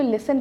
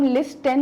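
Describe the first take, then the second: First: लिसन with a silent t, "lis-sun"; right pronunciation. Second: लिस्टन with the t sounded, "lis-ton"; wrong pronunciation. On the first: Teacher giving students the correct listen with a silent t. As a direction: say लिसन with no t at all. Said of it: "टी silent है". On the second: Teacher showing students the wrong listen, t sounded. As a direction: say लिस्टन with a clear t in the middle. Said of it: "इसको हम लिस्टन नहीं पढ़ते". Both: Shown as a demonstration.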